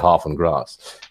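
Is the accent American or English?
English. It is said in an English accent.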